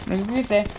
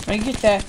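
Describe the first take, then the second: No difference in how they are said.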